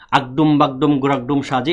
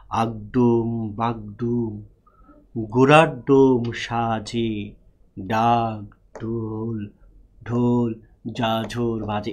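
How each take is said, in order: First: The rhyme is read at a fast pace. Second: The rhyme is read at a slow pace.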